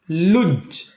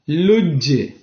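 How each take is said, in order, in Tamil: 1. கடைசி மெய்யெழுத்து எதிரொலி இல்லாமல் தட்டையாக நிற்கிறது. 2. கடைசி மெய்யெழுத்து லேசான துள்ளலோடு வெளிவிடப்படுகிறது.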